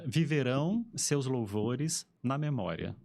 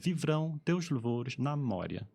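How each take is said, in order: First: All vowels are kept, giving ten full syllables. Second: Unstressed vowels drop out, leaving about seven syllables. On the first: The verse keeps its original meter. "no português brasileiro é bonitinho, as famosas dez sílabas" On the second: The verse loses its original meter. "Em português europeu é"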